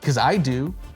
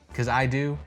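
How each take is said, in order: First: The voice sounds tense and confrontational. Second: The voice sounds calm and relaxed. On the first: The speaker seems defensive and competitive. The speaker calls it wrong. "rather than coming off like this" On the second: The speaker seems friendly and helpful. The speaker calls it right. "You say"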